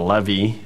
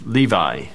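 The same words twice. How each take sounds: First: It is said the way its original speakers would. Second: It is said in the usual English way.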